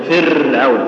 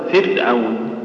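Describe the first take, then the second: First: فرعون with one light tap on the ر; correct single trill. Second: فرعون said slowly with the ر rolled too long; wrong rolled r. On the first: Teacher showing students the right فرعون. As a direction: tap the ر of فرعون just once. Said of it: "أو تقول فرعون". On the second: Teacher imitating a wrong, overrolled فرعون. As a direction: trill the ر in فرعون several times, slowly. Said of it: "خطأ". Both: Shown as a demonstration.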